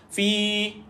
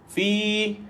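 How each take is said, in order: The two takes are said the same way.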